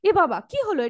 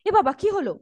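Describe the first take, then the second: First: It is said in a sharply surprised tone. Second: It is said in a flat, ordinary tone. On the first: The speaker calls it right. "আমরা যদি surprised হই আমাদের টোনের মধ্যে সেটা প্রকাশ পাই" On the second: The speaker calls it wrong. "এরকম ভাবে তো তুমি বলবে না"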